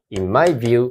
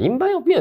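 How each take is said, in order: First: Cool phrase. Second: Mock "In my opinion" pitched way up and silly; sing-song mockery of a tired cliché; mocking uncool. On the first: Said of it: "かっこいいですよ". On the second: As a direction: make fun of the stale phrase. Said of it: "ってダサいじゃん". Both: Shown as a demonstration.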